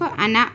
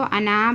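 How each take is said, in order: First: अना with a short final vowel; अना with the alif left silent; correct short reading. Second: अना with the final vowel dragged long; अना ending in an overlong आ; wrongly drawn-out. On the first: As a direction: cut the ना of अना short, no stretch. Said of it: "सिर्फ अना पढ़ेंगे". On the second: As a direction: stretch the ना of अना, the mistake to avoid. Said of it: "बोलकर नहीं खींचना". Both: Shown as a demonstration.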